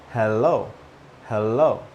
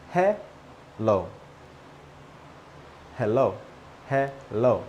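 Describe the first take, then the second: First: HELLO as "hel-lo", L closing first syllable. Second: HELLO split as "he-lo", first syllable open; HELLO without L in first syllable. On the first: Teacher showing the other correct way, HELLO as "hel-lo". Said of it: "There is an L in the first syllable". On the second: Teacher showing learners two hellos, HELLO as open "he-lo". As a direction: say HELLO with no L closing the "he". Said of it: "No L in the first syllable". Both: Shown as a demonstration.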